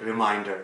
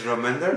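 First: The name sounds like the English word reminder. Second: The name does not sound like reminder. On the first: The speaker calls it wrong. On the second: The speaker calls it right. "it's Raminder"

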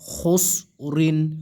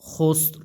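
First: The word ends with a full 'rin' syllable. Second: The word ends on a bare 'r' sound. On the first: The reading continues without stopping. "রদুইজের ঋণ" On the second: The reader stops at this word. "ওয়াকফ করেন, সেই ক্ষেত্রে এর রদুইজের সাকিন হয়ে যাবে"

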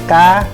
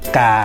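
First: The pitch rises higher, then drops down. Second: The pitch drops a little lower. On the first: "lên nữa rồi nhảy xuống" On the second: "xuống một phất"

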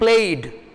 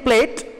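First: The word ends with a d sound. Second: The word ends with a t sound. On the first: The speaker calls it right. "I'm saying played" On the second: The speaker calls it wrong. "Instead of saying plate"

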